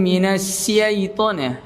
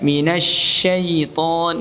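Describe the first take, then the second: First: The consonant is a plain s sound. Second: The consonant is a spread sh sound. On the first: The speaker calls it wrong. "Nah, itu keliru, ya" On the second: The speaker calls it right. "Harusnya sya"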